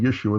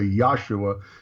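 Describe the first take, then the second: First: The name begins with the syllable 'Yeh'. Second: The name begins with the syllable 'Yah'. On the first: "instead of saying Yeshua" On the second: "they say Yahshua because Yah, like hallelujah"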